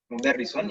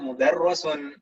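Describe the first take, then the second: First: The vowel before the last syllable is i. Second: The vowel before the last syllable is a. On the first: The speaker calls it right. "Mudarrisun ya" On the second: The speaker calls it wrong. "jangan dibaca mudarrosun"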